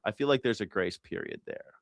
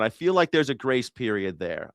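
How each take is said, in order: First: Softer, musing repeat to yourself. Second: Said in the usual way. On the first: Shown as a demonstration. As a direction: echo it quietly as an afterthought.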